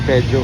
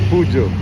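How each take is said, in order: First: It is said with an 'e' and 'dj' sound. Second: It is said with a 'u' and 'j' sound. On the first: The speaker calls it wrong. "hindi Pedjo" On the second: The speaker calls it right. "Pujo pala yung pagbigkas"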